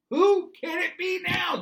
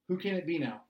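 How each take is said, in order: First: High, loud, slow shout. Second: Said in the usual way. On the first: Retold or imitated. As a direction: blast the question out slowly and much higher. Same question shouted.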